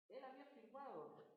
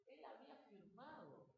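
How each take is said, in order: First: "Él" hit harder and a bit higher; emphatic "Él" at the start, then falling; stress on ÉL. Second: Said in the usual way. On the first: Shown as a demonstration. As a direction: lean on "Él" to say he himself signed it.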